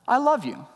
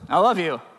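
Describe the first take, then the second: First: It is said warmly and sincerely. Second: It is said dismissively and offhandedly.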